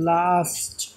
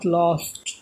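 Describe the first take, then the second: First: The vowel is an open, unrounded 'ah'. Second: The vowel is a rounded 'aw'. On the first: The speaker calls it right. "আ উচ্চারণ হচ্ছে লাস্ট" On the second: The speaker calls it wrong. "Not লস্ট"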